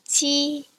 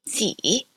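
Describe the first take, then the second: First: It is said with the first tone. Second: It is said with the third tone. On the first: "here are some examples of some words with this first tone" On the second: "the third tone is represented with a reverse circumflex"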